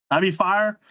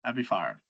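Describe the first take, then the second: First: Said in the usual way. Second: First take muttered low, then said aloud; under the breath. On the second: Real, not acted. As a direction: lower and much softer, half to himself.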